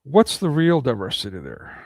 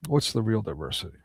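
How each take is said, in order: First: Falling challenge, stress on What's; first asking of What's the real diversity there, firm and falling; rhetorical question. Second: Softer echo with a rising end on What's the real diversity; hushed, rising second asking of What's the real diversity; quiet repeat. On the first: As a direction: throw What's out as an accusation. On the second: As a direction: drop the voice and ask it again, almost to yourself. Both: Shown as a demonstration.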